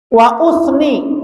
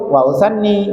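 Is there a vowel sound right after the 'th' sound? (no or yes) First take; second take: no; yes. First: No vowel follows the th before the n. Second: A vowel follows the th, then a doubled n. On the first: I praise. "saknya disukun, hamzahnya didompa" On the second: I begin with the second thing. "Wa usanni artinya saya memulai yang kedua"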